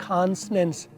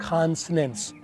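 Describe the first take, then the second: Both takes have the same delivery.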